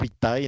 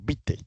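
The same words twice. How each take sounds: First: The final A and E are pronounced separately. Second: The final A and E merge into one E. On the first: The speaker calls it wrong. "no Vitae" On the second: The speaker calls it right. "cuando está la A y la E juntas, se pronuncian como E"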